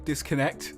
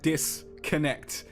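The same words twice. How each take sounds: First: The syllables flow together at normal talking speed. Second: The syllables are stretched out and split apart. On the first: The speaker calls it right. "which is how a normal person would say it" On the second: The speaker calls it wrong. "So boring. Don't do that"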